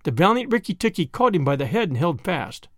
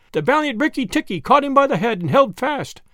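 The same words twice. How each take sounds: First: Said in the usual way. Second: Much higher, a little louder retake. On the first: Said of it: "repeated line". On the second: Shown as a demonstration. Narrator rereads the line raised high and a bit louder. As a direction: lift the whole line higher for a brighter take. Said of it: "repeated higher".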